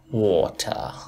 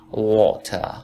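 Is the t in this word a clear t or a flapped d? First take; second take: clear t; clear t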